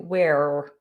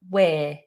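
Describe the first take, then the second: First: An R sound is pronounced at the end. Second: No R sound is pronounced at the end. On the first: The speaker calls it wrong. "Don't try and do we're" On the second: The speaker calls it right. "Just we're"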